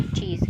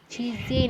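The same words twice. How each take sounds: First: Said in the usual way. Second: चीज़ें with the final e sounded, "chee-zay"; wrong reading. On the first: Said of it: "क्या बोलेंगे हम?". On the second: Shown as a demonstration. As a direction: voice the silent e at the end of चीज़ें. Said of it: "चीज़ें नहीं बोलेंगे". (चीज़ें, आख़िर में "ज़े" बोलकर)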